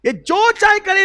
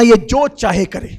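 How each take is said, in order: First: Much higher, rising, pleading pitch; the Prophet pleading for Abdullah, high and impassioned; high impassioned cry. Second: Loud and firm, at normal pitch; the Prophet commanding Umar, loud and firm; loud emphatic order. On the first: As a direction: lift the line up high with emotion. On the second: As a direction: lay the order down forcefully. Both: Acted. Prophet defends Abdullah, repeated line.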